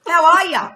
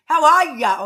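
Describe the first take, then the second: First: Imitating sister's American "How are ya?", loud and high; mock American greeting. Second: Mock American "How are ya?", loud and high; mock American greeting. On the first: Teasing her sister's message in a mock American accent. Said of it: "Even Sister said". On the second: Retelling her sister's text in a hammed-up American accent. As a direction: ham up the Yankee "How are ya?". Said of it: "Sister wrote in the message".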